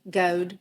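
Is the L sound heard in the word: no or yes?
no. The L sound is dropped from the word. "you say instead of cold, it's goad"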